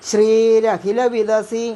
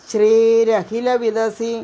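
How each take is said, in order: The two takes are said the same way.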